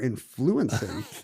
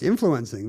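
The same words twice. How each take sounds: First: The stress is on the second syllable. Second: The stress is on the first syllable.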